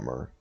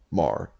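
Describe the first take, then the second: First: The vowel is central, as in her. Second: The vowel is open, as in car. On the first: The speaker calls it wrong. "not Mer" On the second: The speaker calls it right. "Mar, not Mer"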